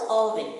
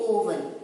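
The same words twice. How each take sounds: First: "oven" said with an aw start; short O pronunciation. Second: "oven" opening on oh; long O mispronunciation. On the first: Teacher naming it for children, short-O oven. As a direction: say "oven" as awl-vin, open O. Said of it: "It is called oven". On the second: Teacher warning children, long-O oven. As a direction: say "oven" wrongly as oh-ven. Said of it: "We don't say oven". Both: Shown as a demonstration.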